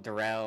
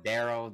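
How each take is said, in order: First: "Darrell" with the stress on the second syllable; mistaken pronunciation. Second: "Daryl" with the stress on the first syllable; proper pronunciation. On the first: Reader repeating his disputed version, "Darrell" stressed at the end. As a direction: say "Darrell" as duh-RELL. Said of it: "You over here, you over here saying Darrell". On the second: Reader echoing the co-host's correction, "Daryl" stressed up front. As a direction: say "Daryl" as DAR-ul, two quick syllables. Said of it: "He doesn't deserve his name pronounced properly". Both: Shown as a demonstration.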